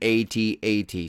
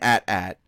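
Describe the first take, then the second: First: Each letter is spoken separately, A-T-A-T. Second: It is said as a short word, at-at. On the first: The speaker calls it right. "Pronounce it the way it's meant to be freaking pronounced" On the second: The speaker calls it wrong. "it's not an"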